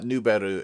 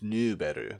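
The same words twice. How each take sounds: First: The vowel is short, not held. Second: The vowel is held a little longer. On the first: The speaker calls it wrong. "it's not Nuberu" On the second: The speaker calls it right. "They hold it a little bit"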